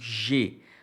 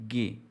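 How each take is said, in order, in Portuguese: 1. A palavra começa com um som suave, parecido com zh. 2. A palavra começa com um som duro de g. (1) "nós não lemos aqui como G" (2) "nós lemos como G"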